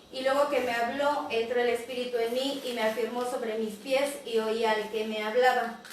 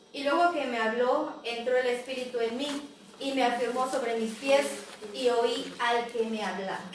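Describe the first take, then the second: Both takes have the same delivery.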